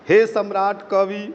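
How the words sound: It is read with a Hindi pronunciation. "लेकिन हिंदी की तरह पढ़ेंगे तो क्या?"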